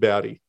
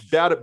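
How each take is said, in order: First: The words run together with a soft d. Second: The words are said apart with a crisp t. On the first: "but you pronounce it bowdy" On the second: "it's bout it, bout it"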